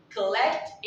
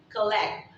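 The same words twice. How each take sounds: First: COLLECT with a clear final T; slow COLLECT, release the T; final T sounded. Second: COLLECT said like "colleck"; slow COLLECT, stop on the K; final T dropped. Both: Shown as a demonstration. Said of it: "You're not pronouncing the word T".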